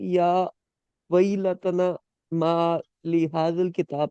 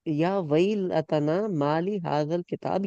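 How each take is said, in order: First: It is said haltingly, stumbling over the words. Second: It is said smoothly without breaks. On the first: The speakers are stuck with fear. The speaker calls it right. "मतलब अटक रहे हैं वो उस point" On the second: The speakers are calm. The speaker calls it wrong. "ये इस तरह नहीं बोलेंगे"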